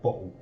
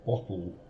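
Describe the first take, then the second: First: It is said in a Kent accent, t dropped. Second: It is said with clear t sounds.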